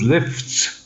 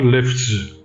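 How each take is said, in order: First: The word ends with an s sound. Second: The word ends with a z sound. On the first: The speaker calls it right. "Number four is lifts" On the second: The speaker calls it wrong. "not lifts"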